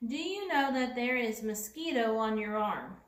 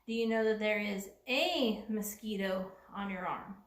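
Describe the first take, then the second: First: Mosquito without a; wrong version. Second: A before mosquito added; corrected version. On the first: Teacher reads a wrong sentence missing a, evenly. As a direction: read it with the article left out. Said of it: "Something's missing". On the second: Teacher reads the corrected sentence with a, calmly. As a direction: put the a back in. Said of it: "We need the word". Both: Shown as a demonstration.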